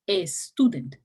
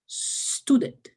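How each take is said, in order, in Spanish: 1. Hay una vocal e extra antes de la s. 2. La palabra empieza directamente con el sonido s. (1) "no es una palabra que empieza con E, no, no se dice student" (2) "se dice student"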